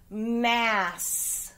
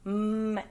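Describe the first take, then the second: First: Said in the usual way. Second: "M-A-S" as separate held sounds, mmm, short a, sss; sounded out. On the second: Shown as a demonstration. Teacher dictating a spelling word, "M-A-S" sounded out sound by sound. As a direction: break "M-A-S" into its sounds with gaps between.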